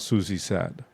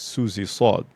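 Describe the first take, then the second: First: The s in 'Sad' is light and plain. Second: The s in 'Sad' is heavy and emphatic. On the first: The name sounds like the English word sad. The speaker calls it wrong. "who doesn't like it when you call her sad" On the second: The name is said with the Arabic letter Sad. The speaker calls it right. "her last name is the letter Sad"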